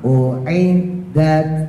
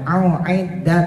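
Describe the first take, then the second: First: The opening vowel is light; only the ain is pressed. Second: Both the opening hamza and the ain are pressed. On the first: The speaker calls it right. "U biasa u u. Nah yang ditekan i nya" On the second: The speaker calls it wrong. "jangan a'iddat. Nah itu ketekan dua-duanya"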